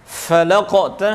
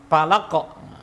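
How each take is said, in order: First: The word begins with an f sound. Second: The word begins with a p sound. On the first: The speaker calls it right. "Seperti contoh fa falaqta hamal aqabah" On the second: The speaker calls it wrong. "kepelicuk pada huruf pa"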